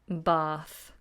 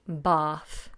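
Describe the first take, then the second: Both takes have the same delivery.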